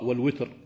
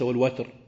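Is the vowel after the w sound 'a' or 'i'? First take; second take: i; a. First: The vowel after w is an i sound. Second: The vowel after w is an a sound. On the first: "قرأ من العشرة بالكسر قرأ والوتر" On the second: "وليس والوتر"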